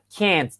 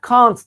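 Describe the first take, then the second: First: American "can't" with a front vowel, like "kent". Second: British "can't" with a broad ah, like "kaant". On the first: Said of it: "Amerikanlar can't diye okuyor". (Amerikan usulü "can't", "kent" diye) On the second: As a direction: say "can't" the British way, open back vowel. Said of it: "Bunu İngilizler can't diye okuyor". (İngiliz usulü "can't", "kant" diye) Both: Shown as a demonstration.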